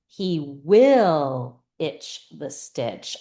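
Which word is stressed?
will. The word will carries the main stress. It is about when he does it. "when is he going to do it?"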